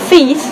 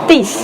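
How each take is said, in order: First: The word begins with a TH sound. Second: The word begins with a D sound. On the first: "Instead of" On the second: "they will say"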